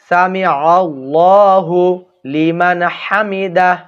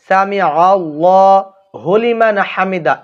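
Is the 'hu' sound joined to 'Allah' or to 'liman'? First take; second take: Allah; liman. First: The 'hu' sound is joined onto 'Allah'. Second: The 'hu' sound is joined onto 'liman'. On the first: The speaker calls it right. "সকলে বলবেন সামি আল্লাহু লিমান হামিদাহ" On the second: The speaker calls it wrong. "এটা হবে না"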